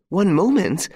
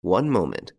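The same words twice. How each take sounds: First: High, loud frantic echo; mother panicking over her son, frantic cry. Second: Said in the usual way. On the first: Acted. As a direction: throw his words back in panic. Frantic mother echoes him.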